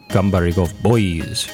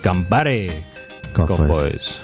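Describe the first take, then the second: First: Gambare runs smoothly into the rest of the title. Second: Gambare is exclaimed, with a break before the rest. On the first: "You know how you pronounce it" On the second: "there's an exclamation point after Gambare. So it's more like"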